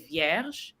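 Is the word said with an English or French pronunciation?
French. The word is said with a French pronunciation. "in French we say vierge"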